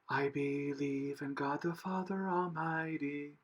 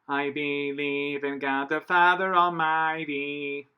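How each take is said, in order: First: The voice is breathy and airy. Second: The voice is squeezed and twangy.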